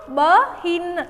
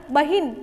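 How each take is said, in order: First: बहिन split slowly into ब, then हिन; sounded out. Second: Said in the usual way. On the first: Shown as a demonstration. Teacher showing where the matra joins, sounded out. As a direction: break बहिन after ब and draw out हिन. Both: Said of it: "हम ई की मात्रा लगा के बोलेंगे".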